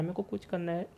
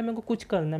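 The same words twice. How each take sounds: First: The repeat of मेरे को कुछ करना है dropped much softer; a mild mock mumble of a lost student; trailing off. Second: Higher, aimless student; a hint of a clueless kid repeating himself; mock confused student. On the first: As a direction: let मेरे को कुछ करना है fade away as if giving up. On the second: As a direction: sound lost and unsure what you want. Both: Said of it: "वो कह रहा है".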